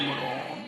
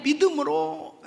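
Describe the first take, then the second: First: Said in the usual way. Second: 믿음으로 said higher and louder, slowed, with a laugh; stressed repeat. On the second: Shown as a demonstration. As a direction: lean hard into 믿음으로 the second time. (믿음으로를 높고 크게 힘주어 반복)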